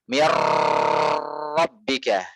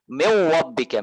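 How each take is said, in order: First: The r has a long, exaggerated trill. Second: The r has no trill, sounding like w. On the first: "Contoh yang berlebihan" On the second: "Mana takrirnya? Hilang"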